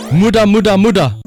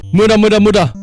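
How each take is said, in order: Both takes have the same delivery.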